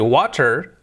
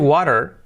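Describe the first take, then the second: First: The middle consonant is a clear T sound. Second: The middle consonant is a soft tapped sound. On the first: "You can say water" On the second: "if you say water, you're gonna sound more native"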